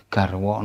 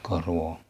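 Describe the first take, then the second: First: "garwo" said "gar-waw", first vowel open ah; "garwo" with ah before the r. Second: "garwo" said "gor-waw", first vowel rounded o; "garwo" with o before the r; wrong O vowel. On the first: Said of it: "A followed by R is always pronounced". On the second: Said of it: "not garwo". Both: Shown as a demonstration.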